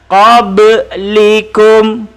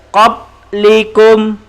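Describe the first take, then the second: First: The b sound has a short echoing bounce. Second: The b sound is cut flat, no bounce. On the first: The speaker calls it right. "Cara bacaan lantun" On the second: The speaker calls it wrong. "kalau tidak lantun"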